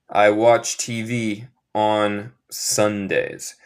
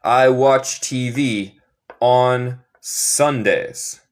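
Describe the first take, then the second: First: Slow plain repeat. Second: Slow sentence with "on" drawn out and clear; stress on ON. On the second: Teacher stresses "on" for students, slow. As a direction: lean slowly on "on" before "Sundays". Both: Shown as a demonstration. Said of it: "Se dice on".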